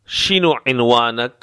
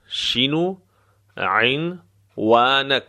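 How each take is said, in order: First: Said in the usual way. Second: شینو lifted, pause, then very drawn-out عنوانک; slow, broken up. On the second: Shown as a demonstration. Teacher breaking down the address question, slow and broken up. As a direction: dictate it piece by piece, very slowly. Repeats phrase slowly in pieces.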